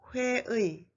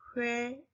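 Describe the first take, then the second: First: The last vowel is a full ui glide. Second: The last vowel is a plain e sound. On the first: "That's correct" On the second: "most people prefer the easy sound e"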